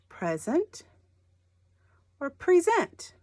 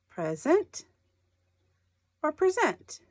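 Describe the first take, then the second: No difference in how they are said.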